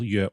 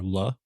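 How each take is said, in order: First: The word begins with a Y sound. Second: The word begins with an L sound. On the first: It means music. "It means music" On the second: It means joy or happiness. "it can also be pronounced le, which means joy or happiness"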